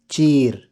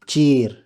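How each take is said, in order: The two takes are said the same way.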